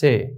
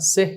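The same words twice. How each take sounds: First: The final h sound is left silent. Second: The final h sound is clearly pronounced. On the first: The speaker calls it right. "উচ্চারণ হবে সে" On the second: The speaker calls it wrong. "না সে না"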